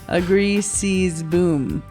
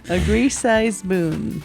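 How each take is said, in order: First: The middle word sounds like sees. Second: The middle word sounds like size. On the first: The speaker calls it right. "It's C's, not size" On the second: The speaker calls it wrong. "I said it wrong. It's C's, not size"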